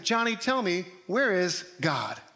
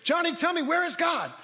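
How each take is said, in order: First: It is asked in a calm, plain tone. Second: It is asked in a frustrated, forceful tone.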